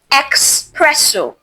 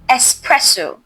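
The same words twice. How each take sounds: First: An X sound is heard at the start. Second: No X sound is heard at the start. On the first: The speaker calls it wrong. "It's not espresso" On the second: The speaker calls it right. "There is no X sound"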